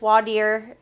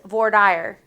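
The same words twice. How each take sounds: First: It is pronounced with a French-like sound. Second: It is pronounced the way it is spelled in English. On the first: This is the usage in other states. "in other states, it's voir dire" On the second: This is the local Texas usage. "Texas just pronounces it how it looks"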